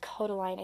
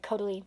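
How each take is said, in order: First: The last syllable has an 'eye' vowel. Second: The last syllable has an 'ee' vowel. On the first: The speaker calls it right. "But it's Kodaline, I think, probably" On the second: The speaker calls it wrong. "That's like the Russian way I would say it because E, I is E in Russian"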